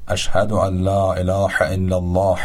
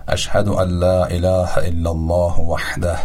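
First: اله with a throaty ḥ in place of h; اله with a pharyngeal ḥ; wrong throaty ḥ. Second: اله with a light Persian h; اله with an ordinary h; soft h. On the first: Retold or imitated. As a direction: imitate saying اله with a tight throat ḥ. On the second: Shown as a demonstration.

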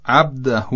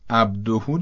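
First: عبده ending on a final a; wrong ending. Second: عبده with a rounded o ending; correct ending. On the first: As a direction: say عبده with an a at the end. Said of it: "نه عبده". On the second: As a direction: end عبده on o. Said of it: "عبده درسته". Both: Shown as a demonstration.

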